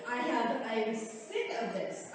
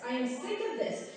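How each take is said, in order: First: Low, soft, slowed and seething; quiet anger. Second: Firmer repeat, voice back up to normal height; open frustration. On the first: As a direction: hold the anger down under the breath. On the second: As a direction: let the frustration out. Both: Real, not acted. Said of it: "I'm getting mad".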